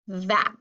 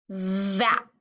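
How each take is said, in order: First: Said in the usual way. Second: Vap with a long buzzing V; blended slowly. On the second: Shown as a demonstration. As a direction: stretch the start of vap as you blend it. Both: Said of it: "each word on the blending board".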